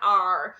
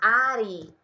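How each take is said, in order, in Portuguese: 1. A palavra termina no som de r. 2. A palavra termina com um som de vogal extra. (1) "você vai falar are" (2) "Cuidado para não falar Ari"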